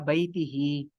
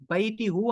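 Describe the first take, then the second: First: The word ends with an 'hi' sound. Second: The word ends with a rounded 'hu' sound. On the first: The speaker calls it right. "अगर हा से पहले जेर आ रही हो तो उसको आप बैती ही पढ़ेंगे" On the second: The speaker calls it wrong. "बैती हूँ आप नहीं कहेंगे"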